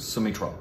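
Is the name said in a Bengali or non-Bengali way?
Bengali. The name is said in a Bengali way. This is how people in Bengal say it. "in Bengal it would be"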